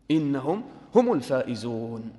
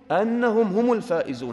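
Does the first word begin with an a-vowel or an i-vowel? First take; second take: i-vowel; a-vowel. First: The first word starts with an i vowel. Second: The first word starts with an a vowel. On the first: Being the winners is a new statement of praise. "وفي قراءة بالكسر فتكون جملة استئنافية جديدة" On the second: Being the winners is the content of the reward. "هذا على قراءة الفتح"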